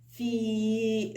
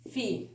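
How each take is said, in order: First: في with the i held long; long vowel. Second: في with a brief i sound; short vowel. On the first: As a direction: stretch في on a level note. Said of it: "لو عاوزة أطولها". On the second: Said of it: "قصيرة". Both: Shown as a demonstration.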